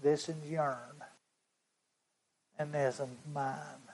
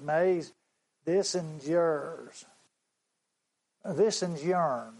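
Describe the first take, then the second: First: Much softer take on "This is yourn"; the boy's words, hushed. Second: Put-on slow, earnest boy's voice, "This is yourn" with a country "yourn"; the boy's humble offer. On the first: Retold or imitated. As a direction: drop it right down, tender and small. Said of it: "That's how he said it". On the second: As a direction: hand the pennies over slowly, like the boy. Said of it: "this is how the boy said it".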